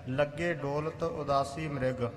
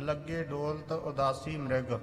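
Both takes have the same delivery.

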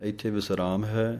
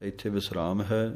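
Both takes have the same delivery.

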